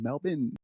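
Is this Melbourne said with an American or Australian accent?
Australian. It is said quickly with an Australian accent. "They say Melbourne here. It's just really quick"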